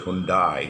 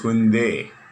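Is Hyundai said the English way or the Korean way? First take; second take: English; Korean. First: It is said with an English-style pronunciation. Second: It is said with a soft Korean-style pronunciation. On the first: This is how English speakers say it. The speaker calls it wrong. "they say Hyundai. It's not Hyundai" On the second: This is the original pronunciation. The speaker calls it right. "original pronunciation of the Korean"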